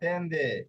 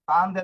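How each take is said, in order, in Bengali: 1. প্রথম স্বরধ্বনিটি 'e'-এর মতো শোনায়। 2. প্রথম স্বরধ্বনিটি 'a'-এর মতো শোনায়।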